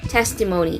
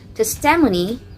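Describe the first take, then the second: First: The stress falls on the first syllable. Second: The stress falls on a later syllable. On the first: The speaker calls it right. "The stress is in the first syllable" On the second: The speaker calls it wrong. "It's not testimony"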